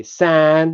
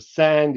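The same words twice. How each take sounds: First: "san" with no d at all; dropped final d. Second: "sand" with a clear final d; "sand" in full; final d kept. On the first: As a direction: end "san" on the n. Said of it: "You say". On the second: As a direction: finish "sand" on the d. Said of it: "instead of". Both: Shown as a demonstration.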